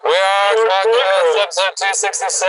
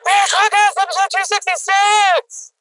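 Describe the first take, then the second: First: It is yelled like a weird loud man. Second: It is yelled in a womanlike voice.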